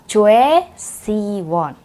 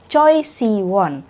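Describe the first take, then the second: First: The first syllable sounds like 'chweh'. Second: The first syllable sounds like 'cho-ee'. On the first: The speaker calls it right. "harusnya bilangnya [name]" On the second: The speaker calls it wrong. "orang-orang yang tidak belajar Hangul itu bacanya Choi"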